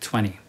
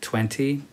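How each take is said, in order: First: The second T is dropped. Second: The second T is clearly pronounced. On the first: "normally we say 20 without the second T" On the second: "Normally people don't say 20, that's okay"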